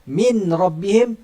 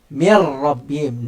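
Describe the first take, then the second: First: The n is pronounced clearly before the r. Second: The n merges fully into the following r.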